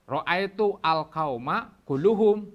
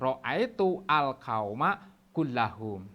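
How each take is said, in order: First: The last word is said with a u vowel after kull. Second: The last word is said with an a vowel after kull. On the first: The word wrongly takes a different case ending from the noun it reinforces. The speaker calls it wrong. "ini salah" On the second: The word takes the same case ending as the noun it reinforces. The speaker calls it right. "yang menjadi taukidnya juga harus dinasobkan"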